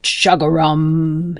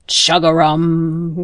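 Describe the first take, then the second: First: Slow, stretched, joyful croak; a happy frog croaking once more; glad frog croak. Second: Slow, drawn-out happy croak; glad frog croak. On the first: Acted. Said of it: "he cried again". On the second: A narrator's reading. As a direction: croak with joy like a big frog. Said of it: "the loudest, gladdest chug-a-rum".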